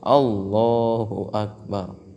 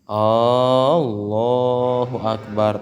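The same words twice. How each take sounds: First: The opening vowel of Allahu is kept short. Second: The opening vowel of Allahu is drawn out long. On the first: The speaker calls it right. "tapi harus Allahu akbar" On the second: The speaker calls it wrong. "jangan dipanjangin hamzahnya"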